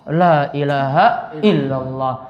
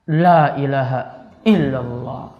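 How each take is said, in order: No difference in how they are said.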